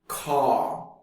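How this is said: South African accent, with the final R dropped.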